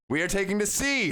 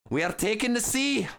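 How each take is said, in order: First: It is read in the speaker's ordinary accent. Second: It is read in a put-on Scottish accent.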